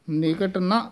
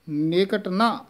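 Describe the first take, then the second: Both takes have the same delivery.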